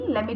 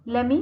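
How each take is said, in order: First: Both words are said fully and separately. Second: The two words blend into one reduced word.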